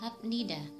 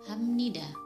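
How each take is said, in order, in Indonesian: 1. Konsonan tengahnya adalah bunyi b. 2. Konsonan tengahnya adalah bunyi m sengau. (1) "seharusnya dibaca habnida" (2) "yang benar dibaca hamnida"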